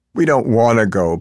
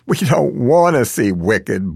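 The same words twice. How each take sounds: First: Put-on Italian accent pleading. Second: Slow blurt. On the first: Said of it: "pleads the old man in a heavy accent". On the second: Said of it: "blurts out the old lady". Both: A narrator's reading.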